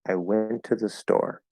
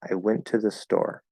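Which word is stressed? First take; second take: store; store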